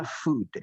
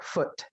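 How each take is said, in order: First: Food with a long oo; food, long and rounded. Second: Foot with a short clipped oo; Foot short, not food. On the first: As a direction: stretch the oo in food. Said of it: "pakai U yang panjang". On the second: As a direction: keep the vowel in Foot brief. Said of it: "Bacanya berarti pendek". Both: Shown as a demonstration.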